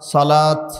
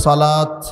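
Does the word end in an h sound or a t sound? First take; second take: t sound; t sound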